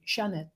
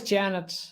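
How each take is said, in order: First: The name is said with a French pronunciation. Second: The name is said with an English pronunciation. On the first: "we pronounce it the French way" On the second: "in English it's always Janet"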